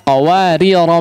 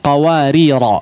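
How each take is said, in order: First: The final vowel is short, running on. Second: The final vowel is drawn out long. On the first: The reader continues to the next words. "ketika diwasalkan maka dia di Uh, hapus ... tidak dibaca" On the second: The reader stops after this word. "ketika diwakafkan maka alifnya tathbut ... sehingga dipanjangkan"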